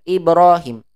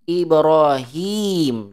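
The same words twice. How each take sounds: First: Ibrahim with the hi clipped short; wrong short vowel. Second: Ibrahim, slow, with the hi held long. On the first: Teacher showing the students the wrong short Ibrahim. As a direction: say Ibrahim quickly, hi not lengthened. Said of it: "tapi dibacanya pendek". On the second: Teacher modelling the correct long Ibrahim for class. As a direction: draw out the hi of Ibrahim. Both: Shown as a demonstration.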